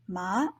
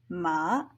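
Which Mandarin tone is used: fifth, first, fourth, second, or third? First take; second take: second; third. First: It is said with the second tone. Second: It is said with the third tone. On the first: It means hemp. "the second one, hemp" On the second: It means horse. "third one, horse"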